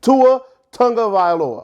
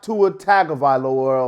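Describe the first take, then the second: First: The surname is said as Tunga Vailoa. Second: The surname is said as Tagovailoa. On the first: The speaker calls it right. "his name is Tua Tunga Vailoa" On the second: The speaker calls it wrong. "not Tua Tagovailoa or anything like that"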